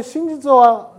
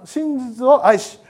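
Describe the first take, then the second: First: Said in the usual way. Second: 「真実を愛し」を一語ずつゆっくり区切って; 「真実」を噛みしめるようにゆっくり; slow emphasis. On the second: Shown as a demonstration. (ゆっくり強調して)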